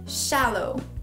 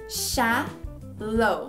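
First: The word is said at a faster pace. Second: The word is said at a slower pace. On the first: "Um pouquinho mais rápido" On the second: "Repeat after me"

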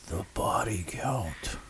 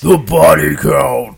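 First: It is said flatly, without drama. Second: It is said dramatically, with epic energy.

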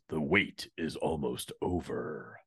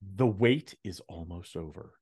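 First: It is said in an odd, put-on promo voice. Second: It is said in a natural speaking voice.

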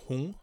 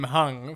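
First: The name is said with its Vietnamese pronunciation. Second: The name is said with an English pronunciation. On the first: This is the name's real pronunciation. The speaker calls it right. "His name's actually Hung" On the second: This is the mistaken pronunciation used for years. The speaker calls it wrong. "I've been calling him Hung for the past 5 years"

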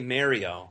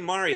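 First: Mario is said the New York-area way. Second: Mario is said the general American way. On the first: This is a regional pronunciation the speaker does not use. "Mario exists in like the Long Island, New Jersey thing" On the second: This is the speaker's own usual pronunciation. "I just say Mario"

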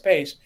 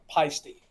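First: The name is said as one syllable. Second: The name is said with two syllables. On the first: This is how it is said in Switzerland. "If you're in Switzerland, it's paste" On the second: This is how it is said in Germany. "If you go to Germany, ... they call it pasty"

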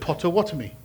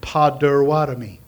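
First: The second consonant is a clear t. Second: The second consonant sounds like a soft d. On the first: It sounds English. "Instead of" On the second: It sounds American. "You just change your T's to D's"

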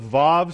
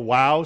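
First: The word begins and ends with a V sound. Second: The word begins and ends with a W sound. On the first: This is the newer way of saying it. "The Vav is like the newer pronunciation" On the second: This is the older, ancient way of saying it. "If you want to talk more like Jesus, you'd say the Wow stanza"

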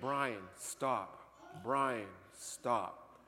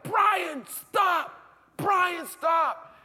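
First: It is said at a normal, quiet volume. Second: It is yelled loudly.

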